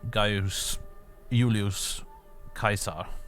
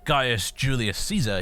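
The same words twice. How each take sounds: First: Caesar begins with a hard K sound. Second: Caesar begins with a soft S sound. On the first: The speaker calls it right. "it's a hard C" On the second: The speaker calls it wrong. "He wouldn't have been"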